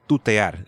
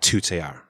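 First: The t has no puff of air. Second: The t has a puff of air. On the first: It sounds like a native speaker. The speaker calls it right. "and tutear" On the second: It sounds like an English speaker. The speaker calls it wrong. "not tutear"

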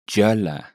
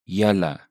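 First: It is said in Cape Afrikaans. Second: It is said in standard Afrikaans.

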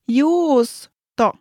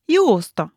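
First: It is said slowly. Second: It is said at normal speed.

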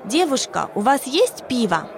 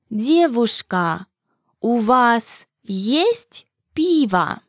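First: It is said at normal conversational speed. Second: It is said slowly and carefully.

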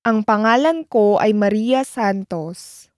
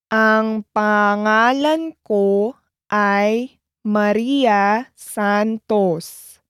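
First: It is said at normal speed. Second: It is said slowly.

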